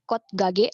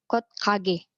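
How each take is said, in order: First: The second word starts with a plain consonant. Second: The second word starts with a tense consonant. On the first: The speaker calls it wrong. "bukan kot gage" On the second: The speaker calls it right. "gioknya berubah menjadi sang giok"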